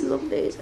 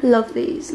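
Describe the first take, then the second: First: Whispered love these, no voice. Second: Said in the usual way. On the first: Real, not acted. Admiring her new nails in a soft whisper.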